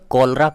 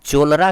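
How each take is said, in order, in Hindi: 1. इस शब्द की शुरुआत 'k' की ध्वनि से होती है। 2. इस शब्द की शुरुआत 'ch' की ध्वनि से होती है। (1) "इसे कॉलरा कहना होगा" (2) "अगर आप इसे चोलरा कहेंगे तो गलत हो जाएगा"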